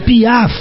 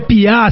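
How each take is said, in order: First: The final f sound is pronounced. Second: The final f sound is dropped. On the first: The speaker calls it right. "É [name]" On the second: The speaker calls it wrong. "não é Piá, seu analfabeto"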